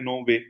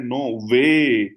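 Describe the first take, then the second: First: Said in the usual way. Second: "नो वे" with "वे" long, loud and arched; proper emphasis on वे. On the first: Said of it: "अगर वो इस पे emphasis नहीं बोलता". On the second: Shown as a demonstration. Child answering properly for full score, "वे" emphasized and drawn out. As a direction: punch and stretch "वे". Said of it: "अगर वो proper बोलता है".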